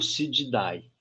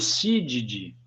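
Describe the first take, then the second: First: The ending is said with an audible a sound. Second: The ending is said with no a sound. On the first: The speaker calls it wrong. "não é o Cididae" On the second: The speaker calls it right. "O Cídide não é"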